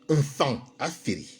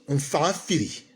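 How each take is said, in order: Both takes have the same delivery.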